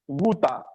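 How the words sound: It is said in a British accent. "in British English you say wuta"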